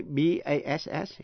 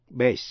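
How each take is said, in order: First: "bass" with the flat a of "cat"; short A, the fish. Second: "bass" said like "base"; long A, as base. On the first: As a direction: say "bass" to rhyme with "mass". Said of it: "là tên một thứ cá nước ngọt". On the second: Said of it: "giọng trầm nam". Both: Shown as a demonstration.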